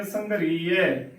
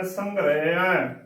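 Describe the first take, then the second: First: Slow ਸੰਘਰੀਏ with long "ee"; drawn-out ee in ਸੰਘਰੀਏ; wrong pronunciation. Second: ਸੰਘਰੇਆ with "re", no long ee; correct pronunciation. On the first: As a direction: say ਸੰਘਰੀਏ as "sangha-ree-ye". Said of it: "ਗਲਤ ਉਚਾਰਨ ਹੈ". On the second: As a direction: say ਸੰਘਰੇਆ as "sangh-re-a". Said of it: "ਸੰਘਰੀਏ ਗਲਤ ਉਚਾਰਨ ਹੈ". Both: Shown as a demonstration.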